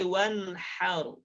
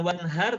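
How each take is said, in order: First: The h is a strong, breathy hiss. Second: The h is a plain, light h. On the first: The speaker calls it right. "tapi wanharu. Kayak orang kepedesan" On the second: The speaker calls it wrong. "Ya bukan wanhar"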